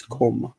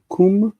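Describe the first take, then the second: First: "kom" said with an o vowel; "kom", slow, rounded o, not oo; changed vowel o. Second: "Kum" said with a long oo vowel; "Kum", slow, with u as in food; root vowel u. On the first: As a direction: sound out "kom" with o replacing oo. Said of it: "Kum becomes kom". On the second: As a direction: sound out "Kum" like koom. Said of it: "it comes from kum". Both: Shown as a demonstration.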